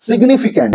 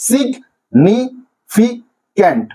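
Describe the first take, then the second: First: Said in the usual way. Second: significant broken slowly into four syllables, with pauses. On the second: Shown as a demonstration. Teacher showing students the division of significant, slow separate syllables. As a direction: say significant as সিগ, নি, ফি, can't, slowly. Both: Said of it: "এটা syllabic division কিভাবে হবে".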